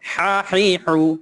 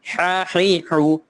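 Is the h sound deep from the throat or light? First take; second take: deep; deep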